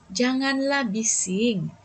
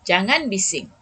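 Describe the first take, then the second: First: It is said in a soft, pleading tone. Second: It is said in a firm, stern tone.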